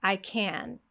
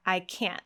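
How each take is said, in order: First: "can" stressed, ending in a sustained N; "I can" with full vowel and open N ending; no final T. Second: "can't" ending in a sharp stop of air; "I can't" with abrupt unreleased T; glottal-stop T. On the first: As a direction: let the N of "can" ring out. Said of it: "the only thing that's different is this T at the end". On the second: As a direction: cut "can't" off in the throat, no T burst. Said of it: "Did you hear that glottal stop". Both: Shown as a demonstration.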